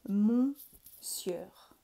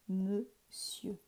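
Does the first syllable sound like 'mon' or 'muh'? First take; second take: mon; muh. First: The first syllable is a nasal 'mon' sound. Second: The first syllable is a reduced 'muh' sound. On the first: It is read exactly as it is spelled. The speaker calls it wrong. "si je le lis comme il est écrit, voilà ce que ça donne" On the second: It is said the way people say it today. The speaker calls it right. "Et maintenant on dit monsieur"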